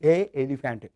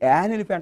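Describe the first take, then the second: First: Two vowels meet with a break between words. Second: An n sound links the words smoothly. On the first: The speaker calls it wrong. "ఏ ఎలిఫెంట్ అనాలంటే నోరు పెద్ద రెండు సార్లుగా కదలాల్సి వస్తుంది" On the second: The speaker calls it right. "చక్క ఫ్లోగా వచ్చేసింది"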